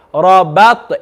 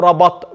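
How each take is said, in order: First: Rabat with smiled ba and bounced t; careful letter-by-letter. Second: Rabat with a full ba and no echo; careless wrong reading. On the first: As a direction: shape every letter of Rabat. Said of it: "picture your mouth moving to it". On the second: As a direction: rattle off rabat with a dead t. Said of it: "don't picture it and you just read it". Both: Shown as a demonstration.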